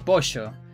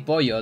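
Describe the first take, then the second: First: The middle consonant is an sh sound. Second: The middle consonant is a y sound. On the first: This is how Argentinians say it. "they say pollo" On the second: This is how other Spanish accents say it. "they don't say pollo"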